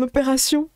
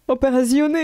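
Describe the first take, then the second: First: Said in the usual way. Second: Opérazione with a fake foreign accent; stumbling fake German accent on opérazione; German accent attempt. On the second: Shown as a demonstration. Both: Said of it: "je sais pas comment dire en allemand".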